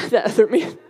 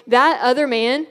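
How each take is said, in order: First: Said through a real laugh. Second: Said in the usual way. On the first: Real, not acted. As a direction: laugh your way through the words "that other man". Repeats the phrase, then laughs.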